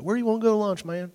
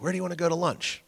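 First: Light mock country accent, pitched higher; a hint of a country accent while teasing a friend. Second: Said in the usual way. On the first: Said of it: "he's got a country accent". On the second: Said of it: "Well, he's got a country accent".

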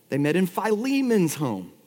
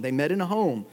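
First: Philemon's given the weight, falling tune; Philemon's set apart from the plain home; stress on Philemon's. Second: Said in the usual way. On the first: Shown as a demonstration. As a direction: lean on "Philemon's" to correct yourself.

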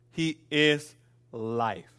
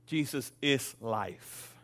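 First: "He is life" very slow, each word set apart, "is" hit firmly; slow emphatic is. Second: "Jesus is life" slow and soft, leaning hard on "is"; slow weighty stress on is. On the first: Pastor repeating the point to the church, slow and emphatic. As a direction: land "He is life" slowly with weight on "is". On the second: Pastor stating the point to the church, slow with stress on "is". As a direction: drop the voice and press on "is" in "Jesus is life". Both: Shown as a demonstration.

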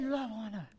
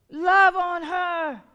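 First: Hushed, gentle repeat of Love; soft echo of God. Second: Slow and louder, leaning hard on Love; forceful plea. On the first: Preacher voicing God's plea to the church, softly. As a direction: breathe it softly like God's whisper. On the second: Preacher repeats God's command to the congregation, slow and loud. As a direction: drive the words home from the pulpit. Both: Acted.

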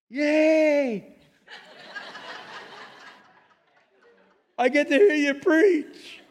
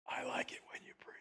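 First: High, bright, slow cheer; excited God voice. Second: Soft breathy whisper of God. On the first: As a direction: squeal with delight like a child. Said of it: "it sounded like this". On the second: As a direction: breathe it like a secret. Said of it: "I heard a whisper come back". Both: Retold or imitated.

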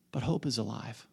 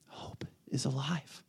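First: Softly stated hope is alive; soft declaration. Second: Slow, breathy whisper, alive rising. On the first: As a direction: say it gently but firmly. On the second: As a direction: let the words hang in a whisper. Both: Real, not acted.

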